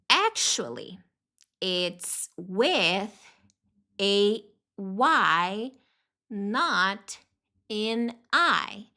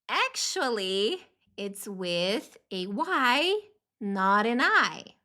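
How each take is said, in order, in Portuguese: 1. A frase é dita em um ritmo mais lento. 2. A frase é dita em um ritmo mais rápido.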